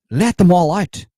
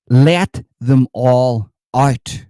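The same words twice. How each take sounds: First: Louder and higher, punchy shout. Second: Slow, loud, drawn-out call to free them; drawn-out cry. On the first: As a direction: fire it off as a high rallying shout. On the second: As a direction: stretch every word like a rally chant. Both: Pretend. Mock zealot rallying cry.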